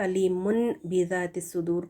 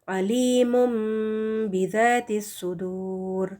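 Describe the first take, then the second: First: An 'n' sound comes before the 'b'. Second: A nasalized 'm' sound comes before the 'b'. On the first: "नून साकिन नहीं" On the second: "हम मीम साकिन को पढ़ेंगे"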